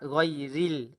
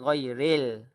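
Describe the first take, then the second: First: The last syllable has a clear 'ee' vowel. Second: The last syllable has a leaning 'ay' vowel. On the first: The speaker calls it right. "jadi yang tepat ghairil" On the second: The speaker calls it wrong. "Bukannya ghairil"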